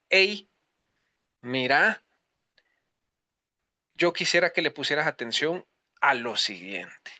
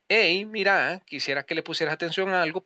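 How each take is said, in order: First: It sounds like a firm call to attention. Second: It sounds warm and encouraging.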